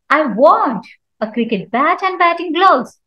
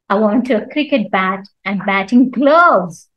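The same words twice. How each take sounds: First: The stress falls on the word want. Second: The stress falls on the word gloves. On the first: The speaker intends to buy, not just look. "So here I'm giving stress on want" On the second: Gloves are wanted, nothing else. "Nothing else but gloves"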